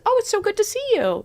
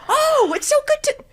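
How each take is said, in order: First: It sounds calm, friendly and neutral. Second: It sounds overly eager and emotional.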